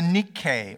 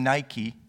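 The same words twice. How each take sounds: First: It is not said like the shoe brand. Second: It is said like the shoe brand.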